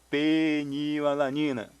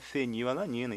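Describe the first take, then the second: First: The word begins with a P sound. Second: The word begins with an F sound. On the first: "este P vai ser aqui" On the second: "Se pronuncia fenilalanina"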